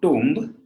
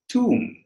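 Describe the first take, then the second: First: The final B is pronounced. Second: The final B is silent. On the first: The speaker calls it wrong. "It's not tomb" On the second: The speaker calls it right. "it is tomb"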